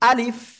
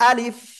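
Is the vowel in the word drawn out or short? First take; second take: short; short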